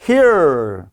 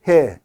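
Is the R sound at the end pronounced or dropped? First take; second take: pronounced; dropped. First: The final R sound is clearly pronounced. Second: The final R sound is dropped. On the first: "미국에선 here" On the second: "영국에서는 R 사운드 빼버리니까"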